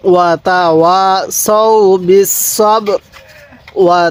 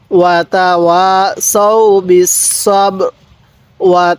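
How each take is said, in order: Both takes have the same delivery.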